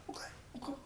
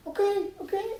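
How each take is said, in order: First: Tiny whispered giving-in; barely audible mock submission; meek compliance. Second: Very high, placating little voice; high-pitched mock compliance; compliant passenger. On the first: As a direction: whisper it like a chastened passenger. Passenger gives in, now meekly. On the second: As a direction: give in meekly, way up high. Passenger gives in.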